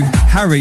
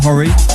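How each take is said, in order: First: The first vowel is an open 'a' sound. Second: The first vowel is a rounded 'o' sound. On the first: The speaker calls it right. "Harry, not Horry" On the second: The speaker calls it wrong. "not Horry"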